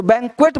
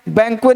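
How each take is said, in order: First: बैंक्वेट ending in a sounded T; correct pronunciation. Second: बैंक्वे with the T dropped; wrong pronunciation. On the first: Teacher gives the right form, with final T. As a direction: pronounce the last T in बैंक्वेट. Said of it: "बोलना है". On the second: Teacher gives the form to avoid, without final T. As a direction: leave the T off, ending बैंक्वे on a vowel. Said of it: "नहीं बोलना". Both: Shown as a demonstration.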